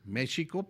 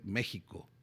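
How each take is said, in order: First: The middle consonant is a soft sh sound. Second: The middle consonant is a harsh throaty h. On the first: This is the old pronunciation. "antes se escuchaba México" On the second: This is the modern pronunciation. "pasó a ser"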